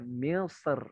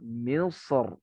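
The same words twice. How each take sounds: First: The r is pronounced light and thin. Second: The r is pronounced heavy and full. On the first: "Boleh dibaca tipis" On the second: "Yang mukodam yang tebal"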